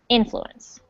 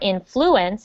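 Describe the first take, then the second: First: The stress falls on the first syllable. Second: The stress falls on a later syllable. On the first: The speaker calls it right. "the emphasis is on the first syllable" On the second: The speaker calls it wrong. "Not influence or influence"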